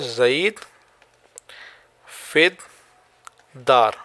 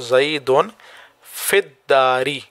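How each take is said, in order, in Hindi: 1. संज्ञाएँ अंतिम कारक स्वरों के बिना बोली जाती हैं। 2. संज्ञाएँ कारक स्वरों -un और -i के साथ समाप्त होती हैं।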